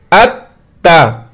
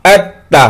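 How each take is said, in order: First: अत्ता said slowly, the त doubled and held; doubled letter. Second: Said in the usual way. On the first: Shown as a demonstration. Teacher shows students the doubled त, slow अत्ता. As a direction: hold the त twice in अत्ता. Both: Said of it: "ता को हम दो मरतबा पढ़ेंगे".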